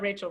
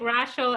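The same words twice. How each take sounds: First: The name is said with an English pronunciation. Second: The name is said with a Dutch pronunciation. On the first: "we also call her Rachel Royce all the time" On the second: "like a Dutch way"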